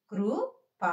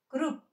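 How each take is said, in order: First: కృ, ప apart, with a full "pa"; separate full letters. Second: కృప్ as one short higher word, closing on p; half last letter. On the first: Teacher sounding out letters before joining them, separate full letters. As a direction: spell out "kru", pause, then "pa". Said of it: "కలిపి చదివేటప్పుడు". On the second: Teacher showing the joined reading, half last letter. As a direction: cut the vowel after p in కృప్. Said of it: "last అక్షరాన్ని హాఫ్గా పలకాలి". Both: Shown as a demonstration.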